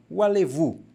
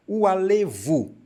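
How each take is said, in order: First: Said in the usual way. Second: "alevu" stretched on its final VU; acento na última sílaba. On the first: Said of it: "então, u alevu". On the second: Shown as a demonstration. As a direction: lean hard on the last syllable of "alevu". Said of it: "Tem um acento aqui". ("alevu" com o VU final bem marcado)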